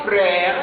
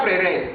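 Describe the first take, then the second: First: Frères as frɛ, slow; correct frères. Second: Frères as frɛrɛz, lower; frères mispronounced frɛrɛz; wrong frères. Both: Shown as a demonstration. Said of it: "fausse prononciation".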